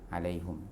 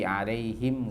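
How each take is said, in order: First: The vowel after the h is u. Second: The vowel after the h is i.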